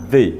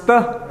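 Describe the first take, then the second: First: "the" with an ee vowel, like "thee"; long-e pronunciation. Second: "the" with a short schwa, like "thuh"; schwa pronunciation. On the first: Teacher showing a class the other form, "the" as "thee". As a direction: say "the" as "thee", falling at the end. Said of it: "and how to pronounce". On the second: Teacher showing a class how to pronounce it, "the" as "thuh". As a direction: say "the" as an unstressed "thuh". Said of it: "how to pronounce the". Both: Shown as a demonstration.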